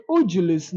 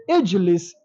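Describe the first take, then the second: First: "Ujulis" said with u at the start and an extra u between j and l; wrong vowels. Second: "Ijlis" said with a short i at the start, no vowel before the l; correct vowel. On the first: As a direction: give "Ujulis" a u start and an inserted u. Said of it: "no, it is wrong". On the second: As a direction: open "Ijlis" on a clear short i. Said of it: "So we say Ijlis". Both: Shown as a demonstration.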